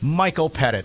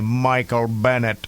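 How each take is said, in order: First: It is said in the speaker's own accent. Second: It is said imitating his Indian doctor's accent.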